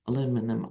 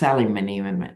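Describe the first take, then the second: First: It is said the American way, aluminum. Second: It is said the British way, aluminium.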